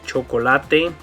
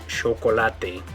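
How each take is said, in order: First: The first consonant is a ch sound. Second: The first consonant is a sh sound. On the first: "instead of the ch sound" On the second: "more of a sh sound"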